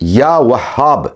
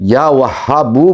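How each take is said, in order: First: The name ends on a final consonant sound. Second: The name ends with an added vowel sound. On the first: The speaker calls it right. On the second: The speaker calls it wrong.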